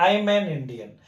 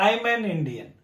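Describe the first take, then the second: No difference in how they are said.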